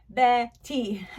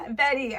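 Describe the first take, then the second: First: "Betty" in two separate beats; syllable by syllable. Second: Said in the usual way. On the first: Shown as a demonstration. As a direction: clap out "Betty" with a clear break. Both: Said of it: "a word to clap out".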